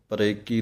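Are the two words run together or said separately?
together. The two words are run together as one. The speaker calls it wrong. "ਪਰੇ ਕੀ ਨਹੀਂ ਕਹਿਣਾ"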